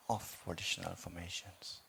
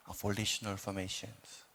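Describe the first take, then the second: No difference in how they are said.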